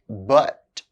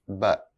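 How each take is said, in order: First: The word is said fully with its full vowel. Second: The word is reduced with a weak vowel. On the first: "I'll say the strong forms of the words first" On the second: "then their weak forms"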